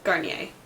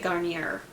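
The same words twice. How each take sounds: First: The final R sound is silent. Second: The final R sound is pronounced. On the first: The speaker calls it right. "But I think it's Garnier" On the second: The speaker calls it wrong. "it has an R at the end, so I always say Garnier"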